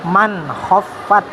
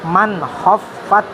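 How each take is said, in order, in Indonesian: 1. Bunyi n diucapkan dengan jelas dan tegas. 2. Bunyi n diucapkan dengan jelas dan tegas.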